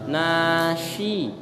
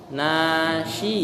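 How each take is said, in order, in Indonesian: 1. Konsonan tengahnya bunyi sh. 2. Konsonan tengahnya bunyi sh.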